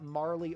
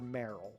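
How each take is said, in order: First: The name ends with an 'ee' sound. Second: The name ends with an 'l' sound. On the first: "Would you would you pronounce that Marley" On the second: "or Meryl?"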